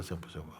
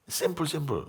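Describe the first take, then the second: First: "simple, simple" trailing off much softer; soft echo. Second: "Simple, simple" pitched much higher with a strong fall; emphatic. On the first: Teacher softly echoing his point to listeners, fading out. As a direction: let "simple, simple" fade almost to nothing. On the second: Teacher insisting to listeners that it is simple, high and emphatic. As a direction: lift "Simple" high and drop it. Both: Real, not acted.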